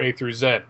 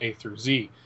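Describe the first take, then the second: First: It is said the British way. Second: It is said the American way.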